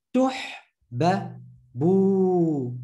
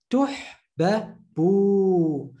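No difference in how they are said.

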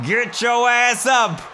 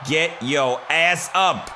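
First: Shouting at a downed wrestler to get up; louder urging shout. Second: Said in the usual way. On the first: Real, not acted. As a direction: yell it up at the screen, higher.

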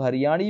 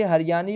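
First: हरियाणी said with a retroflex 'ṇ', tongue curled back; retroflex N sound. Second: हरियाणी said with a plain dental 'n', as 'hariyani'; dental N sound. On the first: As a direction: say हरियाणी with the Haryanvi ण, not न. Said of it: "कुछ लोग इसे हरियाणी भी कहते हैं". (हरियाणी में मूर्धन्य ण का उच्चारण) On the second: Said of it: "कुछ लोग हरियाणी भी कहते हैं". (हरियाणी में ण की जगह दंत्य न) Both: Shown as a demonstration.

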